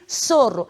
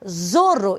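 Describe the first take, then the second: First: The word begins with an s sound. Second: The word begins with a z sound. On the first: The speaker calls it right. "e sim sorro" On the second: The speaker calls it wrong. "não posso pronunciar zorro"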